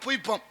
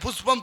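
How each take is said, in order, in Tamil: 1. நடுவில் உள்ள மெய்யெழுத்து அதற்கு பதிலாக y ஒலி. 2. நடுவில் உள்ள மெய்யெழுத்து தெளிவான sh ஒலி. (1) "புஷ்பம்னு சொல்ல தெரியல புய்பம்ங்கிறானே" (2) "புஷ்பம் சொல்றான்னா"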